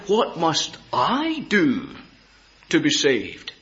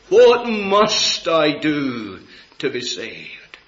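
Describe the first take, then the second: First: The stress is on the word I. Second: The stress is on the word saved.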